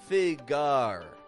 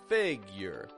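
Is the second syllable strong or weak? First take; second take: strong; weak. First: The second syllable is as strong as the first. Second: The second syllable is weak and reduced. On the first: The speaker calls it wrong. "then you're getting strong, strong" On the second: The speaker calls it right. "Strong, weak"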